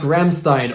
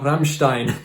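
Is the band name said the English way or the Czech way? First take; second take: English; Czech. First: The name is said the usual English way. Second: The name is said the way Czech speakers say it.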